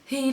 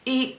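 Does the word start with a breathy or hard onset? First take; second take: breathy; hard. First: The word starts with a breathy h sound. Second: The word starts with a hard glottal catch. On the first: "a little bit of breath in there, a little, an aspirate onset" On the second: "rather than eat"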